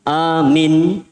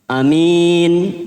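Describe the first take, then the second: First: The first vowel is long, the second short. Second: The first vowel is short, the second long. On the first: A command to believe. "A-nya dua, minnya satu" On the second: A trustworthy person. "A-nya satu, minnya dua"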